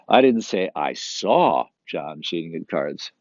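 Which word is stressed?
saw. The word saw is stressed. He cheated, but it was not seen. "But he was still cheating"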